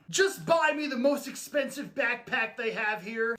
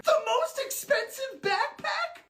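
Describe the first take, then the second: First: Said in the usual way. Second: Much higher, squeaky disbelief; squeaky shocked voice. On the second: Acted. Other character repeats the request.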